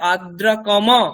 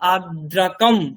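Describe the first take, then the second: First: The final m carries a full vowel after it. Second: The word ends on a bare m sound. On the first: The speaker calls it wrong. "এরকম হবে না" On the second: The speaker calls it right. "এটা বলতে হবে"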